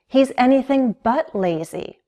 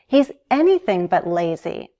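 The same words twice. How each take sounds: First: The word but is stressed as the focus. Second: The word anything is stressed, higher and louder. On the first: "another pattern where but is the focus word" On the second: "my voice goes up and gets louder on anything for emphasis"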